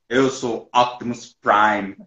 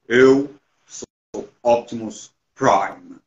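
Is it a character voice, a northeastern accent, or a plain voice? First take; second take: northeastern accent; character voice. First: It is said in a northeastern Brazilian accent. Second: It is said in an imposing put-on character voice. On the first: "o sotaque nordestino no Optimus Prime" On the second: "tentando fazer a voz dele"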